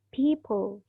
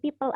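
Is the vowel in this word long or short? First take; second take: long; short. First: The vowel is said long. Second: The vowel is said short. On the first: The speaker calls it right. "mengandung uh, long vowel, jadi bacanya people" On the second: The speaker calls it wrong. "bukan cuma people aja"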